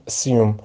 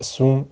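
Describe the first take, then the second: First: Soft سیوم with a y-glide, "uh-SYOOM"; second accepted pronunciation. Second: Soft اسوم with a plain "oo", "uh-SOOM"; first accepted pronunciation. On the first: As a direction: say سیوم quietly with "yoo" after the s. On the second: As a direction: say اسوم quietly with no y-glide. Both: Shown as a demonstration. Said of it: "جفتش هم تلفظش درسته".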